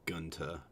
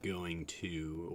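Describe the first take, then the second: First: It is reduced to 'gunta' with a t. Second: Both words are said in full. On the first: This marks the regional valley accent. "it's gunta" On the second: This is the usual full form. "instead of like going to"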